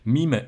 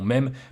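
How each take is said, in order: First: It is pronounced the English way, like 'meem'. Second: It is pronounced the French way, like 'mem'. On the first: The speaker calls it right. "c'est un terme anglais, donc on devrait le prononcer mime" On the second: The speaker calls it wrong. "et non mème"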